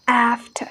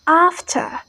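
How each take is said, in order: First: American "after" with the a of cat; "after" with a flat American a vowel; American pronunciation. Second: British "After" with a long ah; "After" with an open back first vowel; British pronunciation. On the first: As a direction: say "after" with a front "a", never ah. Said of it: "But Americans say". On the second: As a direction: say "After" as "ahf-tah". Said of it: "the British pronounces like". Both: Shown as a demonstration.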